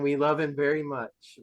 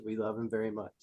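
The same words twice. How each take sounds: First: Said in the usual way. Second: Low, soft affectionate echo; hushed and lightly sincere; tender retold quote. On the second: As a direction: repeat it quietly, lower, as imitated fondness. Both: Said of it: "And just the way he said".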